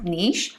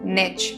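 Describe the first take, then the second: First: The word is said in a British accent. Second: The word is said in an American accent. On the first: "Britishers pronounce करते हैं इसे as नीश" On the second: "American pronounce this as निच"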